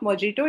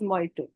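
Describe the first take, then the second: First: The middle consonant is said as a j sound. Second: The middle consonant is left silent. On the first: The speaker calls it wrong. "It's not मोजिटो" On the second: The speaker calls it right. "It is मोइटो"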